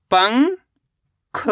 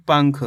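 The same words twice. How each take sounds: First: पंख as long rising "pang", pause, "kha"; split syllables. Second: Said in the usual way. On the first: Shown as a demonstration. Teacher showing पंख once more, split syllables. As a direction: stretch पंख into two separate syllables. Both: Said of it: "तो मिलके बन जाएगा".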